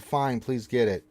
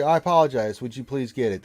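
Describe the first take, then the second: First: Grudging, drawn-out please; sarcastic. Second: Courteous, earnest asking; polite request. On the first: Retold or imitated. Mocking a chat request in a sarcastic tone. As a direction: toss it off with fake politeness. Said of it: "now you're being sarcastic". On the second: Shown as a demonstration. Streamer demonstrating the polite way to ask. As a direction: show the chat how to ask nicely. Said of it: "That's how you do that".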